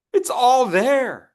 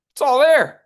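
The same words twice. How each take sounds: First: Slow, stretched, stress on all; drawn-out It's all there; slow emphatic. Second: High, loud declaration; ringing It's all there; emphatic exclaim. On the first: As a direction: lean on all slowly. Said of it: "slow repeated emphasis". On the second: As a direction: belt it out like a revelation. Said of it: "coach repeats emphatically". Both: Shown as a demonstration.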